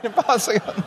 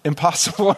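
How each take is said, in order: First: Much higher, put-on mock of the refusal; preacher mocks the waiter's stock answer in a higher voice. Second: Said in the usual way. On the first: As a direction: parody the waiter with a sneer. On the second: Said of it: "And his answer was".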